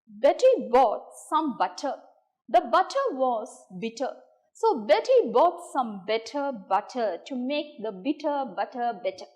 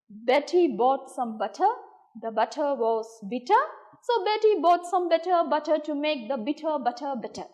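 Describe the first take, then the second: First: It is said at a slower pace. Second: It is said at a faster pace.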